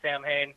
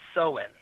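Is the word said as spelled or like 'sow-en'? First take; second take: as spelled; sow-en. First: It is sounded out as spelled, with an m. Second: It sounds like 'sow-en', with no m sound. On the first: The speaker calls it wrong. "he pronounces the word literally, which is incorrect" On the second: The speaker calls it right. "It's actually pronounced Sowen"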